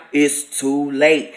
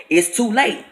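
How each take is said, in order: First: Low, slow, booming voice from beyond; deep slow voice of judgment; otherworldly voice. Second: Said in the usual way. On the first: Retold or imitated. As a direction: drop low and drag it out like a judgment from above. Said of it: "It wasn't in no regular tone". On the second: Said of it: "It wasn't no regular voice".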